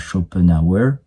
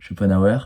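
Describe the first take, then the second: First: The name is said with an English accent. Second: The name is said with a French accent. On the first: "pourquoi je fais un putain d'accent anglais là-dessus?" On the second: "ça se dit comme ça"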